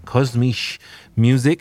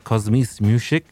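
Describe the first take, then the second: First: The German words are pronounced carefully. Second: The German words are pronounced carelessly. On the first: The speaker calls it right. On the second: The speaker calls it wrong.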